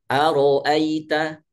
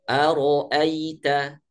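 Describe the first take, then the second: The two takes are said the same way.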